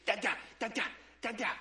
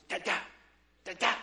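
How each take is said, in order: First: Imitating an excited baby's babble; short bursts of mock baby babble. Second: Imitating a baby's insistent babble; fervent scowling baby. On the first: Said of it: "She's so excited, and she goes". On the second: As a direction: babble in short, scolding bursts with a scowl. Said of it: "she gets a scowl, and she goes".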